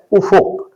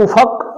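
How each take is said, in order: First: افق as "u-fuq"; short u after the f in افق; درست تلفظ. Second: افق as "u-faq"; short a after the f in افق; غلط تلفظ. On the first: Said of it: "فے پر پیش ہے". (افق، فے پر پیش کے ساتھ) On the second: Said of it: "فے پر زبر کے ساتھ". (افق، فے پر زبر کے ساتھ) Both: Shown as a demonstration.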